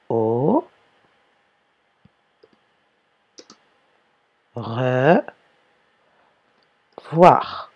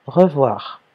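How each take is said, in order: First: "Au... re... voir" with long pauses between the parts; separated for dictation. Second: Said in the usual way. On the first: Shown as a demonstration. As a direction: dictate "revoir" slowly, split as re, then voir. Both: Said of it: "on ne colle pas".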